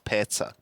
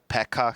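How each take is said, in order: First: The middle consonant is a ts sound. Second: The middle consonant is a k sound. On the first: The speaker calls it right. "he's Petsa" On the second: The speaker calls it wrong. "Can you please stop calling that guy Pekka?"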